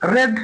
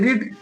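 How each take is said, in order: First: The vowel is short, like in 'red'. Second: The vowel is long, like in 'reed'. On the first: It is the past-tense form. "ভাবটু কি হবে? রেড। একই বানাম, উচ্চারণটা আমরা different করবো" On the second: It is the present-tense form. "পড়া English রিড"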